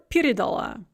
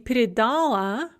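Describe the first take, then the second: First: The stress is on the first syllable. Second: The stress is on the stem syllable. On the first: "or at the beginning of the prefix" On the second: "the stress can be either on that stem"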